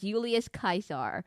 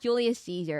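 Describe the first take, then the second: First: Caesar starts with a hard K sound. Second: Caesar starts with a soft S sound. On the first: The speaker calls it right. "C's are always pronounced with a hard C" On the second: The speaker calls it wrong. "not Julius Caesar"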